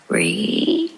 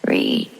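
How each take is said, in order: First: It ends with a rising, question-like pitch. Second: It ends with a level, statement-like pitch.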